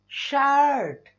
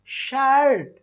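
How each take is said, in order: No difference in how they are said.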